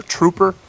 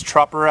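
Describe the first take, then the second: First: "trooper", first syllable rhyming with loop; "trooper" with long oo. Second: "trupper", first syllable rhyming with cup; "trupper" with short u. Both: Shown as a demonstration. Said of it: "however you pronounce it".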